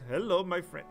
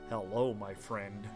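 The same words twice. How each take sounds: First: It is said happily with a stereotypical Indian accent. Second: It is said without the stereotypical Indian accent.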